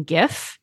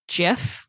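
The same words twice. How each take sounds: First: "gif" with a hard g, as in "gift". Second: "gif" with a soft g, like "jif". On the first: Explaining the usual meaning, "gif" with hard g. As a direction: start "gif" with a hard g sound. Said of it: "when we mean gif". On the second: Explaining the inventor's way, "gif" as "jif". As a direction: say "gif" starting with a j sound. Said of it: "then we would all be saying". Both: Shown as a demonstration.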